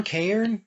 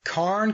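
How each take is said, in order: First: "cairn" stretched to KAY-urn, higher; alternative pronunciation. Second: "cairn" said as KARN, one syllable; unsure pronunciation. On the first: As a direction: try "cairn" as a questioning "kay-ern". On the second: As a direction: try "cairn" with an open ah, like "carn". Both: Shown as a demonstration. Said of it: "gonna completely botch this".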